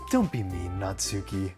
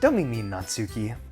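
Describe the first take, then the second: First: It is said in the Yuri character voice. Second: It is said in a different character voice.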